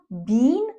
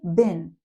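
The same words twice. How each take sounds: First: The vowel is a long E sound. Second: The vowel is a short, reduced sound. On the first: "You could use a long E sound" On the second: "but when you're speaking, just say been"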